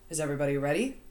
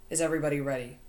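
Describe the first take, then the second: First: Ready lifted up at the end like a question; first try, with a questioning rise on ready; rising question. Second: Ready falls flat like a statement, no question rise. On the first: Shown as a demonstration. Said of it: "He says it like th". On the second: A narrator's reading. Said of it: "He says it like that, like a statement rather than a question".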